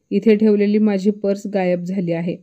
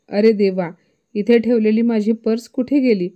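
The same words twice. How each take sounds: First: Said in the usual way. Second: Louder and higher, panicked call; loud alarmed cry. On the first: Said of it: "शीलाताई संतापून म्हणाल्या". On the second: A narrator's reading. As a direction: cry out that the purse is gone. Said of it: "मोठ्याने म्हणाल्या".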